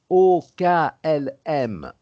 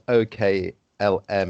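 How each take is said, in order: First: The letters are spoken with French letter names. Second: The letters are spoken with English letter names. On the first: The speaker calls it right. "c'est O K L M en français" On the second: The speaker calls it wrong. "it's not O K L M in English"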